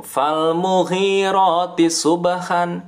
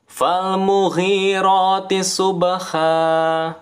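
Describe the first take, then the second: First: Subhan with a clear final n; tanwin ending. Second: Slow chant, subha ends on long a, no n; mad iwad ending. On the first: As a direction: read subhan the normal way with n. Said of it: "Kalau dibaca biasa". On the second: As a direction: stop on subha with a held a. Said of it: "Kalau dibaca biasa kan". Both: Shown as a demonstration.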